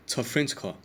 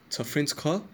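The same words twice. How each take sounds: First: It is said with a statement intonation. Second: It is said with a questioning pitch at the end. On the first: It asserts that the listener is French. "So this isn't a question. I'm saying you are French" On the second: It asks whether the listener is French. "There's a question mark at the end because of how I pitch it"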